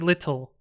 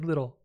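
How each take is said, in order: First: The middle t is a crisp t. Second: The middle t is softened to a d. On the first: "we don't say little" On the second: "T's in the middle of words get smooshed into D's"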